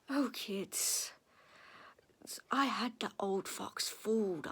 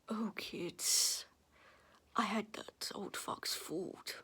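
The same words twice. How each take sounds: First: It is said in the speaker's ordinary voice. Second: It is said in a put-on character voice. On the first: The speaker calls it wrong. "That wasn't his voice, that was mine" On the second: The speaker calls it right. "I'll do it in his voice"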